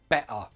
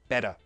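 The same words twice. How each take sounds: First: The middle t does not sound like a d. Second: The middle t sounds like a soft d. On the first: "British English would pronounce it better" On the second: "American English would say better"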